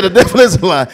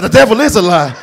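First: Loud repeat leaning on is; scared exclamation. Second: Loud, laughing the devil is a lie; scared exclamation. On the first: Startled usher repeating his cry to the Lord. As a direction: insist on it, louder, hitting is. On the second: Startled church usher crying out to the Lord. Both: Retold or imitated.

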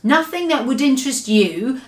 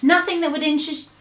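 First: Dismissive answer. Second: Quick evasive answer. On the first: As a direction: brush him off. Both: A narrator's reading. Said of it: "the B F G answered".

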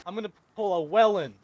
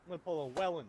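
First: Said in the usual way. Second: Much softer, muttered to himself; quiet repeat. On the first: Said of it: "You know what the Wellen is?". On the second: Real, not acted. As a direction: mutter the line under your breath.

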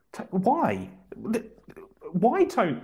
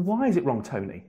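First: Mock-desperate, begging for an answer; exasperated pleading. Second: Said in the usual way. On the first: Host pleads with the commenter Tony, mock-exasperated.

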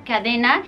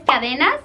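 First: "cadena" with the final s silent; French pronunciation. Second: "cadenas" the Spanish way, final s sounded; Spanish pronunciation. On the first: Teacher shows the French word, final s silent. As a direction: drop the s ending of "cadena". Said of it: "En francés no se pronunciaría la S". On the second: Teacher gives the Spanish word, Spanish pronunciation. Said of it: "no se pronunciaría la S". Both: Shown as a demonstration.

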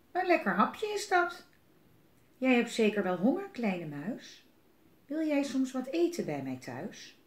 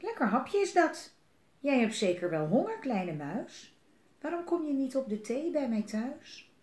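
First: Sly fox. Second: Hungry owl. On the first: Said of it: "Vos die zag hem en die dacht". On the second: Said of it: "Uil die zag hem en die dacht". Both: Acted.

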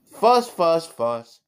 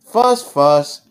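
First: Mock fuss that sinks on the last word; fussy copycat. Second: Louder, emphatic mock fuss. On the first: Little Toby copying Daddy's fussing, higher mock fuss. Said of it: "I can be a fussy mouse too". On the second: Daddy being a fussing mouse, loud playful fussing. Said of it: "I am a fussing mouse". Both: A narrator's reading.

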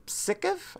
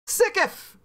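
First: "Sickif?" said as a high, rising, doubtful question; unsure name guess. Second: "Sickif!" said high and falling, sure of itself; confident name. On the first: Streamer unsure how to say a viewer's name, questioning. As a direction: test "Sickif?" with a tentative rise. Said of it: "I guess that's how I would say that". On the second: Streamer greeting a viewer, pretending to nail the name. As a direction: nail "Sickif!" with mock triumph. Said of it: "Got it! I nailed it the first time". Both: Shown as a demonstration.

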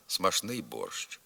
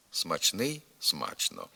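First: Смашний борщ, slowly, with ш; смашний borsch with ш; шн pronunciation. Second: Смачний, смачно with a clear ч; parallel чн variant. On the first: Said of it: "вимовляються і слова". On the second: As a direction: sound the ч in смачний. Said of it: "паралельний варіант вимови із сполученням «чн»". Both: Shown as a demonstration.

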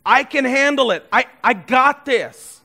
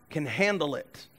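First: Louder, higher self-assured boast on handle; proud voice insisting I can handle it; cocky boast. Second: Said in the usual way. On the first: Pretend. Prideful phrase repeated loud.

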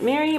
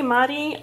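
First: "Mary" said like "merry"; pronunciation MARY. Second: "Mari" said like "MAH-ree"; pronunciation MARI. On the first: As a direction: say "Mary" with an "eh" first vowel. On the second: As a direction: say "Mari" with an "ah" first vowel. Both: Shown as a demonstration. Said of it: "didn't know how to pronounce it".

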